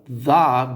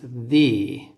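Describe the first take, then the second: First: The vowel is a short schwa sound. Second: The vowel is a long ee sound. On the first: "is when there's a consonant" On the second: "But when you have samohlaska, a vowel"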